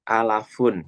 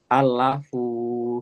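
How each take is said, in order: First: The final vowel is kept short. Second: The final vowel is drawn out long. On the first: The speaker calls it right. "harusnya itu pendek" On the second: The speaker calls it wrong. "malah dibaca panjang"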